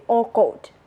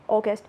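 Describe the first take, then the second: First: AUGUST as "aw-goht", without the S; Burmese pronunciation. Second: AUGUST with a short "gust" ending; English pronunciation. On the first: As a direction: say AUGUST with a round O ending. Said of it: "Burmese people, me, always say August". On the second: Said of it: "in English August". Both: Shown as a demonstration.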